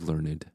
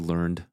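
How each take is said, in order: First: The word is said as two syllables. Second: The word is said as one syllable. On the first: The speaker calls it right. "You say learned" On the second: The speaker calls it wrong. "You don't say learned"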